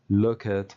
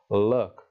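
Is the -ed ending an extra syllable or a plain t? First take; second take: extra syllable; plain t. First: The ending is said as an extra syllable. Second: The ending is a plain t sound. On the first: The speaker calls it wrong. "mucho ojo a no pronunciar cosas como" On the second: The speaker calls it right. "va a sonar con k y con t"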